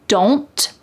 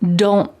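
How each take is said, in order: First: The final T is released with air. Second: The final T is stopped without air. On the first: "Do not becomes don't" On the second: "in a fast sentence, you're more likely to hear don't"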